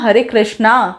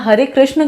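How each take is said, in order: First: The last word ends with a long vowel. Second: The last word ends with a short vowel. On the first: The speaker calls it wrong. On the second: The speaker calls it right.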